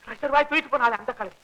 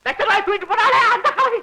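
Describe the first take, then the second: First: Softer, toned-down echo of the line; subdued repeat. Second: High, agitated explanation; excited retort. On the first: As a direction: drop the excitement and say it softly. Same words repeated, subdued. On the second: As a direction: blurt it out high to set the son straight. Excited retort, then repeated low. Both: Acted.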